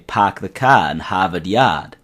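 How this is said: It is said in a Boston accent, soft R's.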